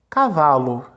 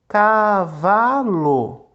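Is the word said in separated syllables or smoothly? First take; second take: smoothly; separated. First: The syllables run together without any pauses. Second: The syllables are separated by short pauses. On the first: The speaker calls it right. "porque a gente não fala pausadamente" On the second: The speaker calls it wrong. "Vamos soletrar pausadamente"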